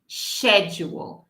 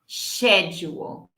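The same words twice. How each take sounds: First: It begins with an sh sound. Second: It begins with an sh sound.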